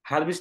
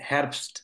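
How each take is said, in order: First: It is said 'harvist', with a v sound. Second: It is said 'herbst', with a b sound. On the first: The speaker calls it wrong. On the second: The speaker calls it right.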